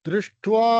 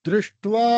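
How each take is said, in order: No difference in how they are said.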